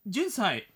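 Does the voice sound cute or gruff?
cute. It is said in a cute, childlike manner. The speaker calls it right. "もっと可愛く10 歳になりきらないと。"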